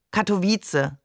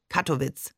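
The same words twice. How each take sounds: First: "Katowice" said the Polish way, ending in an unstressed -tse; Polish pronunciation. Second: "Kattowitz" said the German way, ending in -witz; German pronunciation. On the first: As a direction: say "Katowice" with three clear vowels and a final -e. Polish name beside German name. („Katowice“ polnisch, mit -ze am Ende) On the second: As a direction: say "Kattowitz" without a final vowel. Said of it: "zu Deutsch". („Kattowitz“ deutsch, auf -witz endend) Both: Acted.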